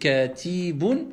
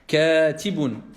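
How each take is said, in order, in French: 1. La voyelle après le t est longue. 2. La voyelle après le t est courte.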